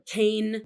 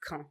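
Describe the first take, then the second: First: Said the English way, sounding like 'cane'. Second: Said the French way, as locals say it. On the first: The speaker calls it wrong. "or cane" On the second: The speaker calls it right. "the French pronunciation is Caen"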